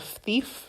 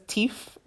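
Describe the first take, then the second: First: Said in the usual way. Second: Thief said as "teef", with a hard T; dropped TH. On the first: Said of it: "teef instead of thief". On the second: Retold or imitated. Speaker quoting dad's funny word, thief as "teef". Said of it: "My dad says teef instead of thief".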